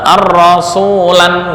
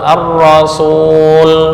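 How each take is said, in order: First: The word ends with an added 'an' sound. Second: The word ends without an added 'an' sound. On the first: The speaker calls it wrong. "ar-rasulan nggak boleh" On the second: The speaker calls it right. "Yang betul ar-rasul"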